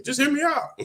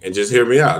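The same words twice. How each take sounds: First: Squeaky high pleading repeat of "just hear me out"; pleading to be heard in a high squeak; mock falsetto plea. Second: Said in the usual way. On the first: Shown as a demonstration. Squeaky falsetto "just hear me out" pleading with his viewers.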